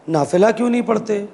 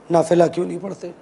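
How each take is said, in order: First: Said in the usual way. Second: "नाफिला क्यों नहीं पढ़ते?" dropped lower and rushed, fading; lower, quicker repeat. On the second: Retold or imitated. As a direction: let the third time fall away fast and low. ("नाफिला क्यों नहीं पढ़ते?" धीमे, नीचे सुर में और तेज़ी से) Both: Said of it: "तीन लफ्ज़, तीन मरतबा".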